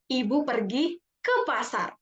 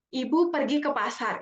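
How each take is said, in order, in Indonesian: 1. Kata ke pasar diberi penekanan. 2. Tidak ada kata yang diberi penekanan. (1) "kita tekan di ke pasarnya" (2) "Itu kalau kita ngomong biasa"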